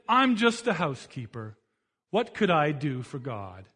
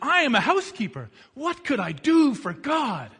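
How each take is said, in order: First: It sounds defeated and self-belittling. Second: It sounds hopeful and eager.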